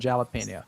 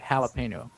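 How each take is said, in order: First: The word is said the English way. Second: The word is said the Spanish way. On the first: This is how everyone said it in the past. "Everybody said jalapeno" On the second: This is the newer way people say it. "I'd never heard a soul say jalapeno"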